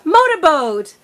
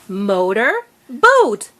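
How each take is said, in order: First: The two parts are blended together quickly. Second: The two parts are separated by a pause.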